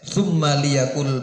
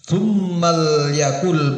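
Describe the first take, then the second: First: The l carries a short i vowel. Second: The l has no vowel and joins thumma. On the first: "boleh juga dibaca kasroh" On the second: "boleh dibaca sukun"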